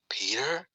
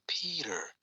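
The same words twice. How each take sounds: First: It sounds like an asking, unsure question. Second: It sounds like recalling and putting pieces together.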